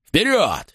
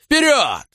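First: High urging cry; roared command. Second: Full shout. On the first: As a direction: call the men forward. (призывный крик) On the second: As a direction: yell the final push at full force. (крик во всё горло) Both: Acted. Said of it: "взревел".

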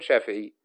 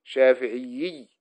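First: شافعي with a single doubled ending ي; شافعي, ending clean on one ي; correct Shafi'i. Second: شافعيي dragged out slowly with a doubled ending; mock the wrong شافعيي by stretching the end; شافعيي said slowly with an extra ي; wrong Shafi'iyy. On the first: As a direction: say شافعي with one stressed final ي. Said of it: "لا تقل". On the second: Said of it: "لا تقل شافعيي". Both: Shown as a demonstration.

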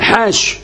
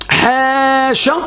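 First: حاش with a long a and a silent ش at the end; حاش, ending on a bare sh; final sh without a vowel. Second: حاشا slow, pitched higher, long a after ح; حاشا, drawn out as a teaching example; demonstrating a variant. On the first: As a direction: cut حاش off dead on the ش. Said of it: "بسكون الشين". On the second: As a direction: lift and stretch حاشا as a model form. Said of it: "أو الرابعة يعني". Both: Shown as a demonstration.

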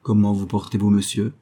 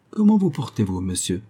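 First: "Comment vous portez-vous, monsieur" level and even, no lift; cold. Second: Solemn. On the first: The pastor returns the greeting to Tuttle with cold indifference. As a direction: hand the greeting back coolly, indifferent. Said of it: "avec autant de froideur". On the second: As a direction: greet him with grave ceremony. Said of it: "dit Watkins Tuttle avec solennité". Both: A narrator's reading.

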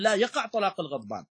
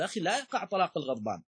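First: "لا" as a separate objection, then "يقع" higher as an affirmation; contradiction. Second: "لا يقع" run together as one negation, quick; denial. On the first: The other disputant objects, affirming "يقع" at a higher pitch after "لا". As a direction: set "لا" apart and lift "يقع" high. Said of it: "والآخر يأتي يقول". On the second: One disputant denies the angry man's divorce, "لا يقع" joined quickly. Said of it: "يأتيك واحد يقول". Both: Acted.

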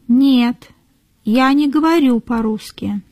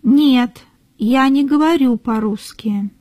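No difference in how they are said.

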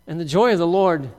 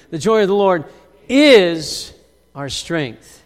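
First: Said in the usual way. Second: Call and response. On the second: Shown as a demonstration. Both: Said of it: "somebody say that word with me".

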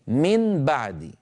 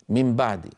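First: من بعد very slowly, tongue tip striking a distinct N; clear unmerged nun. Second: من بعد run together as "mim ba'd"; nun turned to mim. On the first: Teacher shows students how heavy it feels, clear nun. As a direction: draw out the N of من before the B of بعد. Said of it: "انطقوا نونا مظهرة يقرعها طرف اللسان". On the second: Teacher repeats the effortless natural form, nun as mim. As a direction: say the N of من as a lip M before B. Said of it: "النون إلى ميم". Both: Shown as a demonstration.

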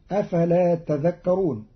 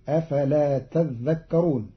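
First: Said in the usual way. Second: تذكرون with a doubled dhal, "tadhdhakkarūn"; Qalun reading. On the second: Shown as a demonstration. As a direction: lean on the ذ of تذكرون. (تذكرون بتشديد الذال) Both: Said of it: "قرأ قالون كلمة تذكرون بتشديد".

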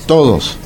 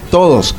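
The two takes are said the same way.

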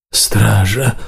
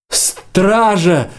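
First: Hoarse, strained call for the guard; croaking. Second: High-pitched cry for the guard; straining shout. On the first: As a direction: croak it out weakly, without a shout. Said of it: "захрипел Гелька". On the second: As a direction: call out as if with all your might. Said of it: "закричал Варан, что из силы". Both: A narrator's reading.

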